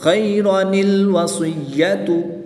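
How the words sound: It runs straight on, linked by an n sound. "जब वक़्फ़ नहीं करेंगे"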